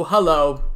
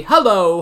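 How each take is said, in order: First: A deep, lower repeat of the greeting; low echo hello. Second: Said in the usual way. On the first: Acted. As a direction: drop the voice low for the second hello. Double hello greeting, second lower.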